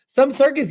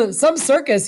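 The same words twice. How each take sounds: First: Amused, high and dry again; appreciative. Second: Amused, high and dry; appreciative. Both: Acted. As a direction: relish the spectacle lightly. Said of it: "he said appreciatively".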